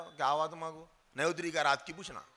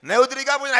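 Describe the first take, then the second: First: Softer, quicker mumbled question; tossed off under the breath, fast; quiet quick ask. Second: Louder, with क्या lifted and stressed; clear emphatic ask. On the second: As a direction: ask it out loud, leaning on क्या. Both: Shown as a demonstration. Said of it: "ऐसे पूछना".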